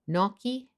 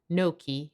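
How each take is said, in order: First: The word is said with a British accent. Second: The word is said with an American accent. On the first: "in the U K" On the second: "in the U S"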